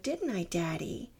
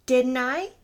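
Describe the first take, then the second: First: Said in the usual way. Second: Sudden loud demanding repeat. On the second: Acted. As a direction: snap the question out loud. Repeats the question, much louder.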